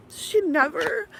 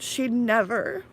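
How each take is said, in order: First: She never breaking high; teary. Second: Said in the usual way. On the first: Real, not acted. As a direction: let she never crack upward. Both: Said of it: "I'm getting teary".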